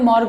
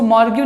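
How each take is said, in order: First: "मॉर्ग" as one syllable ending on a hard g; correct pronunciation. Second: "मॉर्ग्यू" said with an added "yoo" ending; wrong pronunciation. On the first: Teacher gives students the correct reading, "मॉर्ग" ending on g. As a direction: say "मॉर्ग" as morg, with no "yoo" after the g. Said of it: "मॉर्ग पढ़ते हैं". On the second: Teacher shows students the misreading, "मॉर्ग्यू" ending in gyu. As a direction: say "मॉर्ग्यू" as mor-gyu, sounding out the silent ending. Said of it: "नहीं पढ़ते हैं". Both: Shown as a demonstration.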